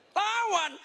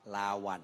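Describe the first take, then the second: First: Very high mock-startled cry; feigned shock. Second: Said in the usual way. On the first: Preacher pretends to discover the word, feigned shock. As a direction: pretend you just found out, voice shooting up. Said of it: "Baru tahu, pura-pura kaget loh". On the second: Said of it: "pura-pura kaget loh".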